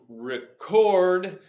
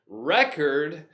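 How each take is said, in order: First: The stress is on the second syllable. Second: The stress is on the first syllable. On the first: It is used as a verb. "with the verb, to record, stress on the second syllable" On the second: It is used as a noun. "If the noun, stress on the first syllable"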